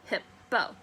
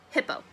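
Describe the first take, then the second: First: "Hippo" split in two, hip, then po; broken into syllables. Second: Said in the usual way. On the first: Shown as a demonstration. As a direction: sound out "Hippo" slowly, beat by beat. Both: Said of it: "Break it down".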